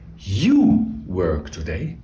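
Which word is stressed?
You. The stress falls on the pronoun you. The focus is on who does the action.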